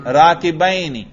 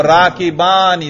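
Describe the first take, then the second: First: "राकिबैनी" with an ai glide in -baini; pronounced with ya. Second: "राकिबानी" with a long open aa in -baani; pronounced with alif. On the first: Teacher shows students the audible nasb, "राकिबैनी" with ai glide. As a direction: sound the ya in "राकिबैनी" as -bai-ni. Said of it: "या पढ़ रहा हूं मैं". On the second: Teacher shows students the audible raf, "राकिबानी" with long aa. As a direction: sound the alif in "राकिबानी" as -baa-ni. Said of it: "अलिफ पढ़ रहे हैं". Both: Shown as a demonstration.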